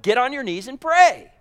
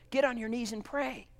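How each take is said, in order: First: Higher, stronger, pressing down on pray; firm command. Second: Dropped soft, almost to a hush; hushed command. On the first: Preacher urges judging church members to pray, firm and raised. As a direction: ring it out as a firm order. Louder repeat of same line. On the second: Quiet then louder repetition. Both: Acted.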